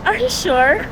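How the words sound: It is said in a sarcastic tone.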